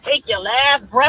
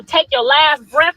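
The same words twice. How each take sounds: First: Mocking threat, dragged slowly; slow quoted threat. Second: Mock threat, said slowly and deliberately; slow menacing quote. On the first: Streamer replaying the threat line, slow and mocking. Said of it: "your homeboy said". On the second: Mother quoting a commenter's threat, slow and menacing. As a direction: drag out the threat word by word. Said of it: "told me consequences pending".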